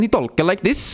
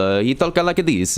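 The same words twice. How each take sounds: First: High, lilting mock Norwegian accent. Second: Slow mock Italian accent; Italian turtle accent. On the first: Turtle showing Norwegian speech, mock Norwegian accent. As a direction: pitch it up in comic Norwegian. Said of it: "Norwegian, he talk like this". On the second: Turtle showing how he talks, mock Italian accent. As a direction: draw it out in a comic Italian accent. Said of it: "Italian turtle be like".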